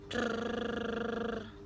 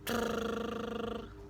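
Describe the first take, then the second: The two takes are said the same way.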